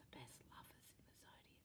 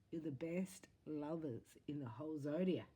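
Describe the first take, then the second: First: Whispered fast, like a secret; hushed confiding whisper. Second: Said in the usual way. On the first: Shown as a demonstration. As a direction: lean in and whisper it. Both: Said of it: "I'm gonna tell you a secret".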